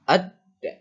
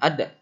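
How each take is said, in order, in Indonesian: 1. Konsonan di tengah ditekan dan ditahan panjang. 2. Konsonan di tengah pendek, tanpa ditahan. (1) "ada tekanan dan ditahan" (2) "Jangan ada"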